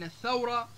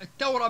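First: Said in the usual way. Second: الثورة as et-tawra. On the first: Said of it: "بدل من الثورة". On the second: Shown as a demonstration. Teacher contrasting dialect and standard, الثورة with t. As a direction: say الثورة with a plain t. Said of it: "اختفاء حروف مثل الثاء".

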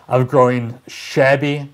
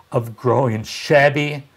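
Both takes have the same delivery.

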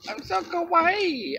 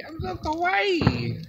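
First: High, slow cutesy kawaii squeal; excited anime fan. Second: High, slow cutesy kawaii voice again; excited anime fan. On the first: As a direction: gush like a giddy anime girl. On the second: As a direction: gush sweetly like an anime girl. Repeats the cutesy line. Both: Pretend.

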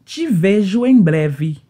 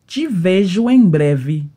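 Both takes have the same delivery.

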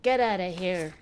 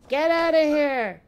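First: Said in the usual way. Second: Louder, higher playful shout; mock yell. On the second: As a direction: shoo them off with a hammed-up holler. Repeats dismissal as mock yell.

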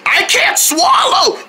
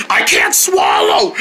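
First: High, slow pained shout; choked shout. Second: Choked, breathless whisper; strained whisper. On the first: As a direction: cry it out in pain. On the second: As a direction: force it out while choking. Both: Acted. Choking on spice.

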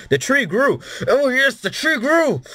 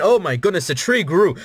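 First: Much higher, building to a falsetto squeal; squealing delight. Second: Higher and delighted, the tree grew; thrilled by the growing tree; excited. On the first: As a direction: shriek with growing joy at the tree. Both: Real, not acted. Tree grows in his game.

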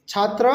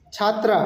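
First: "ছাত্র" ending in a short rounded vowel; short final vowel on "ছাত্র", chhaatro; masculine Nepali form. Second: "ছাত্রা" ending in open "aa"; chhaat-raa, open final vowel on "ছাত্রা"; feminine Nepali form. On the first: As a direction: keep the end of "ছাত্র" short, no "aa". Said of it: "নেপালিতে বলবো". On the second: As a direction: open up the last syllable of "ছাত্রা". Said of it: "ছাত্রী যেটা আছে ওইটা আমরা বলবো". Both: Shown as a demonstration.

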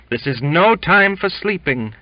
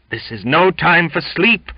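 First: High and loud, leaning hard on no; exultant. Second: High, loud, ringing preacher's cry; very loud exclamation. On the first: Cook repeats his rebuke to Jimmy, exultant and loud. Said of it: "he repeated with exultation". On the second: Cook rebukes sleepy Jimmy, very loud fervent exclamation. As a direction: thunder it like a fiery preacher. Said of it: "exclaimed the cook very loud". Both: A narrator's reading.

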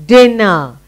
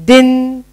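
First: Said in the usual way. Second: "Dinner" broken in two, first part held; split into syllables. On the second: Shown as a demonstration. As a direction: hum out the n of "Dinner", pause, then finish. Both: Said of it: "we're doing two syllable word".

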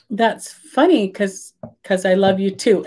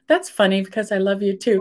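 First: Slow, halting nervous reply; halting shy answer to "I love you". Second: Said in the usual way. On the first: Retold or imitated. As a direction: say it shyly, stalling for time. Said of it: "'cause it's so nervous". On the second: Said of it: "so we still say that now".

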